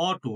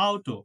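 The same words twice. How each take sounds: First: Auto said as "aw-to"; un-German auto, like অটো; mistaken pronunciation. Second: Auto said as "ow-to"; German-style auto, opening on ow; correct German pronunciation. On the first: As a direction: say auto with a single o vowel, no "ow". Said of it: "এটা কিন্তু অটো না". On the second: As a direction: say auto with an "ow" diphthong. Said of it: "that is not auto". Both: Shown as a demonstration.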